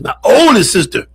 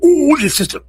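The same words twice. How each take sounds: First: Oldest stressed; correcting. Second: Oldest pitched up high; emphatic repeat. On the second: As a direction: lift oldest firmly to fix it. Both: Real, not acted. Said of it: "not my baby sister".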